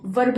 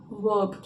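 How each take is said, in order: First: वर्ब with the R sounded before the B; wrong pronunciation. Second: वर्ब with a silent R, like "vub"; correct pronunciation. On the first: Teacher warning pupils off a pronunciation, वर्ब with R sounded. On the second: Teacher modelling the word for pupils, वर्ब with silent R. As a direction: drop the R in वर्ब, low and softer. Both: Shown as a demonstration. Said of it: "वर्ब नहीं बोलना".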